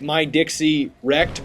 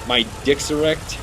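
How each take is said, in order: First: The phrase is said slowly with separate words. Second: The phrase is said quickly with words run together. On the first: It is read as the player's name. "It looks like My Dixie Wrecked" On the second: It sounds like a rude phrase. "if you say that a lot quicker"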